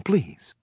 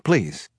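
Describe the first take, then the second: First: Put-on Southern accent. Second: Said in the usual way. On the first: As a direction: beg with a Southern drawl. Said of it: "with a heavy Southern accent". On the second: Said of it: "I had to keep her on the line".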